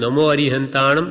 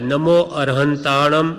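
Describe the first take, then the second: First: The second word is said 'arihantanam' with an 'i'. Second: The second word is said 'arahantanam' with an 'a'. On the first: This is the form another sect uses. "શ્વેતાંબરમાં નમો અરિહંતાણમ નમો સિદ્ધાણમ કહે" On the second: This is the form one sect uses. "એમ દિગંબરમાં કહે"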